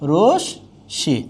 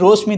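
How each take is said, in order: First: The sh is doubled and no m is heard. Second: The m is sounded after the sh. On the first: The speaker calls it right. "হয়ে যাচ্ছে রশ্মি" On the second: The speaker calls it wrong. "কেউ যদি বলেন রশ্মি তাহলে কিন্তু হবে না"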